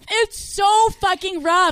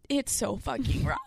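First: Frustrated shout. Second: Said in the usual way. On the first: Real, not acted. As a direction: stretch and shout the complaint. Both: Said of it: "repeated louder".

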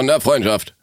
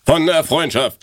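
First: Thorsten Sträter impression. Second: Slow, louder announcing of the title; recital title. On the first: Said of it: "bisschen Thorsten Sträter, der aus mir rauskam". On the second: Shown as a demonstration. Reading the title aloud to her friend, slow and theatrical. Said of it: "in meiner perfekten Betonung lesen".

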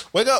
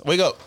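First: Half-playful wake up call. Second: Said in the usual way. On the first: Acted. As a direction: rouse her from sleep. Waking drunk girlfriend.

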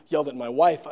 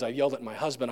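First: Wife stressed with a rising tune; corrected word. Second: Said in the usual way. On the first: Shown as a demonstration. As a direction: correct yourself, leaning on wife.

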